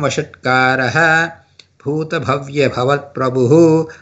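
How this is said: The first word ends in -aha, then a pause. The reciter pauses at the line break. "If you give a pass"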